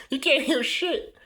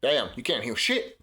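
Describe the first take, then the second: First: High, slow, laughing repeat. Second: Said in the usual way. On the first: Real, not acted.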